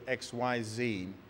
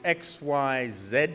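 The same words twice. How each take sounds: First: It is said with an American accent. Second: It is said with a non-American accent.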